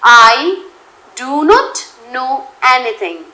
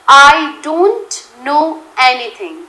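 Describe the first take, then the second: First: "Do not" is said as two full words. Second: "Do not" is contracted to one syllable. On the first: "डू नॉट know" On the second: "डोंट know"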